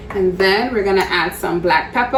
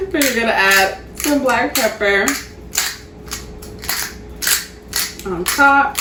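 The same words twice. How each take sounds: First: Playful rising lilt on pepper; odd sing-song. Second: Said in the usual way. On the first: Real, not acted. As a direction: say pepper with a silly upward swoop. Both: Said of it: "don't know why I said it like that".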